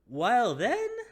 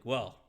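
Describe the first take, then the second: First: It is said in a put-on innkeeper voice. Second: It is said in the speaker's ordinary voice.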